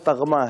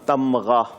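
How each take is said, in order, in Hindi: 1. g की आवाज़ m से पहले आती है। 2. m की आवाज़ g से पहले आती है। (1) "असल लफ्ज तगमा है" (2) "अब हमारे यहाँ तमगा"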